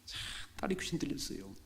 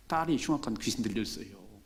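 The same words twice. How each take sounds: First: Whispered, secretive retelling. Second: Said in the usual way. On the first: Shown as a demonstration. Preacher repeating the line to the congregation in a whisper. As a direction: drop to a hushed whisper. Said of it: "whispered repeat of the line".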